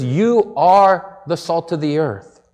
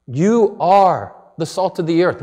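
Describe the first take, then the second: First: Slow and weighty. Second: Said in the usual way. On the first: Shown as a demonstration. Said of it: "He says".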